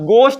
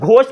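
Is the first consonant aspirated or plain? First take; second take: plain; aspirated. First: The first consonant is a plain g sound. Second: The first consonant has a breathy h sound. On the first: The speaker calls it right. "अब गोस्ट बोलूंगा" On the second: The speaker calls it wrong. "अभी तक तो शायद मैं घोस्ट बोल रहा था, लेकिन अब घोस्ट नहीं"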